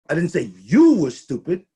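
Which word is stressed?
you. The word "you" carries the main stress. Someone else was called stupid. "I said the team was stupid"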